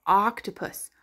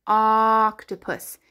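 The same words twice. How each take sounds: First: Said in the usual way. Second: "Octopus" with a long ah at the start; stretched first sound. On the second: Shown as a demonstration. Teacher showing what O says, "Octopus" begun on a long ah. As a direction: draw out the opening vowel of "Octopus".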